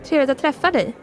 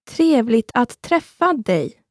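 First: It is said at normal speed. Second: It is said slowly.

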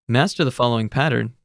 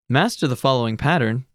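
No difference in how they are said.

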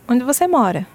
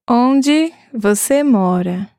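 First: It is said at normal speed. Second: It is said slowly.

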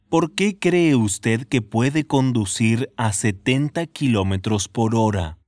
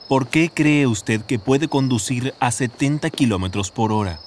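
First: It is said slowly. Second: It is said at normal speed.

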